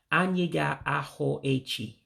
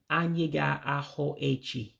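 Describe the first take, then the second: No difference in how they are said.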